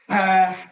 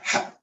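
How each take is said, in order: First: The breath keeps flowing out smoothly. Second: The breath cuts off suddenly. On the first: The speaker calls it right. "It's ha" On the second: The speaker calls it wrong. "So it doesn't just stop ha. Suddenly. It's not ha"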